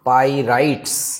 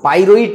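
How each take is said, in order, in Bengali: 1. এটি 'pyrites' হিসেবে বলা হয়, শেষে s আছে। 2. এটি একটি বাড়তি o দিয়ে বলা হয় এবং শেষে কোনো s নেই। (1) "এটার উচ্চারণটা হচ্ছে পাইরাইটস" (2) "পাইরোইট না"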